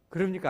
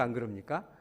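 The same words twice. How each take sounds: First: High, loud question thrown at the congregation; loud call. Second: 안 그럽니까 asked with a rising end; rising question. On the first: Preacher calling out to the congregation, loud question. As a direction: call it out to the pews, louder. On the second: Preacher coaxing the congregation's agreement, rising tune. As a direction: let 그럽니까 lift at the end, inviting an answer. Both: Real, not acted.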